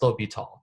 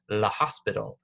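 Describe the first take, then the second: First: The name is said with its French pronunciation. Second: The name is read out the way it is spelled. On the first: The speaker calls it right. "It's L'Hôpital" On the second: The speaker calls it wrong. "it does look like La Hospital. That's not what it is"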